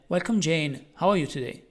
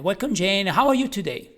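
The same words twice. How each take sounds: First: The voice sounds flat and uninterested. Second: The voice sounds warm and genuinely interested. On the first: The speaker does not care how the person is. The speaker calls it wrong. "Like you don't care" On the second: The speaker really wants to know how the person is. The speaker calls it right. "a tone of real interest in what the person has to say"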